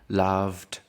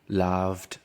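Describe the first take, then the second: First: The ending is pronounced as a t sound. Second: The ending is pronounced as a t sound.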